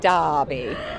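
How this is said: It is said with an Australian accent.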